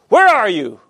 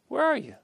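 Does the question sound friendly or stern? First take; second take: stern; friendly. First: The question sounds stern and accusing. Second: The question sounds casual and friendly. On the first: The caller knows something has gone wrong. "That's the way we typically read it, right? Because we kind of know what happened" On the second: The caller is keeping a regular, friendly appointment. "But we can read it differently"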